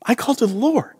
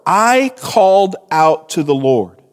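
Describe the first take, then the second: First: Said in the usual way. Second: Weighty "I", Jonah claiming the work; stress on I. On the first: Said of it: "the focus seems to be a little bit more on Jonah's work". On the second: Acted. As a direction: lean hard on "I", let the rest fall. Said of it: "he is emphasizing his work".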